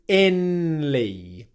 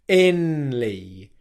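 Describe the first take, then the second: First: An N sound comes before the L. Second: The same.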